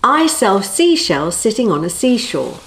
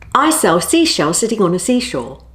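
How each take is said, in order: First: It is said at a slower pace. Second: It is said at a faster pace.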